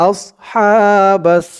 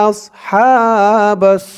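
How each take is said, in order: No difference in how they are said.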